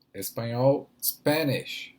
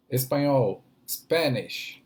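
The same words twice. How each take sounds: The two takes are said the same way.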